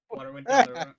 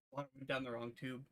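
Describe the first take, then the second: First: Choked, strained burst after swallowing wrong; forced out through a cough, water down the wrong pipe. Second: Said in the usual way. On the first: Real, not acted.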